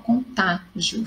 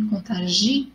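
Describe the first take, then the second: First: The stress falls on the syllable ta. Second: The stress falls on the syllable gi. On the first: "ficou fácil porque tem acento"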